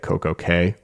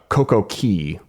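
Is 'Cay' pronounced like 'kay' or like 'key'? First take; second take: kay; key. First: The last word sounds like 'kay'. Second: The last word sounds like 'key'. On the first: "the reason they pronounce it K" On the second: "but they pronounce it K"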